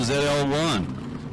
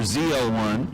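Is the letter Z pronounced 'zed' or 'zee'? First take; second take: zed; zee. First: The letter Z is pronounced 'zed'. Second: The letter Z is pronounced 'zee'. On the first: This is the Canadian way of saying the letter. The speaker calls it wrong. "I said Z instead of Z" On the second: This is the American way of saying the letter. The speaker calls it right. "or Z L one, sorry"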